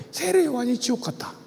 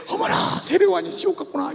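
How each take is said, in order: First: Said in the usual way. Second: Breathy gasp, then a realizing sigh; a hammed-up aha moment; mock amazement. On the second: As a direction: act like a learner struck by a revelation. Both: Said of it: "무릎을 치고 배우는 거야".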